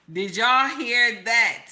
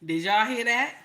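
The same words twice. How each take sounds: First: Did y'all hear that, slowed and stretched, weight on y'all; slow stunned repeat of Did y'all hear that; slow emphatic repeat. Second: Said in the usual way. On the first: Real, not acted.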